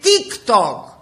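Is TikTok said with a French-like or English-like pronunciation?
English-like. It is pronounced the English way. The speaker calls it right. "Πες τα σωστά"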